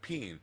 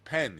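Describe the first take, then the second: First: The vowel is raised toward an 'ee' sound. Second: The vowel is a clear short 'eh' sound. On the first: This is how it is said in New Zealand. "It's not peen, and they have a lot of those kind of things in, in New Zealand" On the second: This is how it is said in America. "The word pen is pen here"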